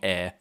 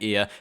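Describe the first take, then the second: First: The vowel is held steady without any glide. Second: The vowel sounds close, like the word ear. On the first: This is the Australian and South African form. "turned it into a monophthong air" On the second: This is the New Zealand form. "in New Zealand it became ear"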